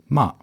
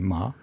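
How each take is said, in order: First: The pitch falls sharply and briefly. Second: It is said light with no tone. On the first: "der letzte Ton ist der 4. Ton" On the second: "Ohne Ton"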